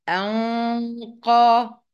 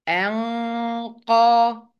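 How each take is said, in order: Both takes have the same delivery.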